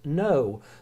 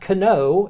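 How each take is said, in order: First: The word begins directly with an n sound. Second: The word begins with a pronounced k sound. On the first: The speaker calls it right. "it's just no" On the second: The speaker calls it wrong. "It's not Kano"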